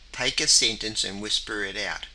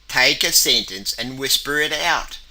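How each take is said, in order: First: The sentence is said in a normal voice. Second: The sentence is said in a loud, bold voice.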